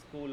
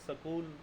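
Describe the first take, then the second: First: The s and k are said together, no vowel. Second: A vowel is inserted between the s and k.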